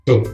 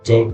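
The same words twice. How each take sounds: First: The first sound of the word is cut short. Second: The first sound of the word is fully heard. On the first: "huruf C nya itu kayak nggak berbunyi sempurna" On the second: "itu normal"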